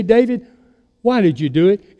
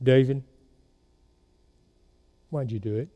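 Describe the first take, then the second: First: Said in the usual way. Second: Low and much softer, almost hushed; mother's soft probing question. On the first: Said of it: "But she'd say". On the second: Retold or imitated. Mother at dinner softly fishing for son's confession, hushed. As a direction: lure out the confession quietly. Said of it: "Or she would say".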